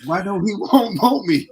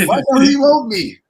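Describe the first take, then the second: First: Higher and louder, whiny plea; mock hurt child. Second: Much higher and louder, near a wail; mock wail. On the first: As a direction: ask like a kid abandoned by his dad. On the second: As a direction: cry out like the kid the dad never visited. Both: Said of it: "I got upset".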